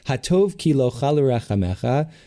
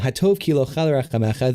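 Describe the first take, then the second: First: It is said slowly. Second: It is said at normal speed.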